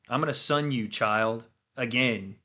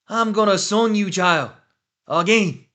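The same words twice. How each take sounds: First: It is read in the speaker's own accent. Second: It is said in a put-on accent.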